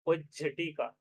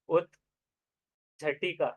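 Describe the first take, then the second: First: उज्झटिका as ujjhatika, no t; joined form. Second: उज्झटिका drawn out as ut-jhatika, t kept; slow split form. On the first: Teacher to students, giving the joined form. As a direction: say उज्झटिका smoothly as one word. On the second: Teacher to students, slowly splitting the word. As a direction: spell out उज्झटिका slowly, t before jh. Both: Shown as a demonstration.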